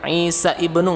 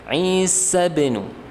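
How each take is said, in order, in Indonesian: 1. Kata kedua dimulai dengan hamzah yang terpisah. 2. Kedua kata tersambung tanpa hamzah. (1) "nggak bisa" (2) "tapi langsung di wasal"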